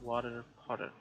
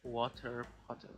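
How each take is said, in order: First: The t sounds are soft, like a quick d. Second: The t sounds are crisp and clearly pronounced. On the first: "I'm speaking to an American" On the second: "I'm gonna say the T. I'm not gonna hide it"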